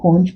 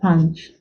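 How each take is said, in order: First: The vowel sounds like a rounded o. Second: The vowel sounds like a short sharp ah. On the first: The speaker calls it wrong. "It's not punch" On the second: The speaker calls it right. "The U there is not all sound but ah, the sharp ah"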